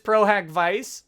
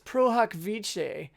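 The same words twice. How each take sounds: First: The phrase is pronounced in an Anglicized Texan way. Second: The phrase is pronounced in a Latin-style way. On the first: The speaker calls it wrong. "that's that's my Texan coming out" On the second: The speaker calls it right. "my lack of Latin pronunciation. It's pro hac vice"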